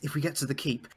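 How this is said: A faint, half-hearted female voice. "you can do a better woman voice than that"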